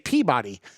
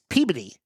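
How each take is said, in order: First: It is said the general American way. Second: It is said the local Boston way. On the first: An outsider says it. The speaker calls it wrong. "Most of the country would say Peabody" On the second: A local says it. The speaker calls it right. "It's Peabody"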